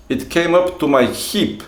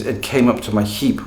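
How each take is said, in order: First: Put-on higher-pitched Russian-accented English. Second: Said in the usual way. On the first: Teacher acting his student describing the snow, Russian accent. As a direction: hip sounding like heap, as a Russian would say it. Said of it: "when you listen to Russian speakers speaking English".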